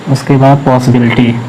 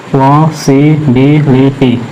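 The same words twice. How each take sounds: First: Said in the usual way. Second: पॉसिबिलिटी said slowly, syllable by syllable; split into syllables. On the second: Shown as a demonstration. Teacher spells out पॉसिबिलिटी syllable by syllable, slowly. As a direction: stretch out पॉसिबिलिटी for the class.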